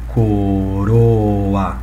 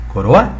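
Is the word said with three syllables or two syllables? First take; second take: three syllables; two syllables. First: The final vowels split into three syllables. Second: The final vowels merge into two syllables. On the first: The speaker calls it right. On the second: The speaker calls it wrong.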